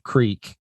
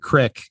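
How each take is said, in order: First: It is said in a standard pronunciation. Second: It is said in a regional pronunciation. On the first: "instead of" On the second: "crick instead of creek is very common"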